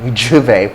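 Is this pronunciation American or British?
British. The word begins with a 'j' sound. "juve, juve for British English"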